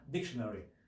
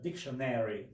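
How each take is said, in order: First: It is said with a British accent. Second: It is said with an American accent. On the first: "the British uh, dictionary" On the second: "the Americans"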